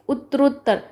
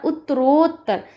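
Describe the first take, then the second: First: Said in the usual way. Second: उत्तरोत्तर with a long, held ओ before त्तर; drawn-out O sound. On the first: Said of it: "यहाँ पर ओ का sound आ रहा". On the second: Shown as a demonstration. Teacher showing students the sandhi sound, ओ in उत्तरोत्तर held long. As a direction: stretch the ओ in उत्तरोत्तर. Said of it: "यानी कि ओ का sound आ रहा".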